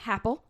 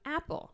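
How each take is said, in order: First: The word starts with an added H sound. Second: The word starts directly with a vowel sound. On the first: "but that's how they pronounce it" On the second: "this is an apple"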